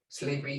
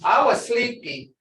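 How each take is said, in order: First: Sleepy, fading softly; drowsy, soft. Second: Said in the usual way. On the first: Shown as a demonstration.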